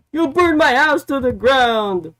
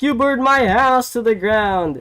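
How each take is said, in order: First: High, loud accusing shout as Hangman; mock angry yell. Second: High, loud accusing shout as Swerve; mock angry yell. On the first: Hangman yelling at Swerve backstage, hammed-up shout. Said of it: "And then Hangman was like". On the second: Swerve yelling back at Hangman, mock shout. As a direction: fling it back, hammed-up. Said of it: "And then Swerve was like".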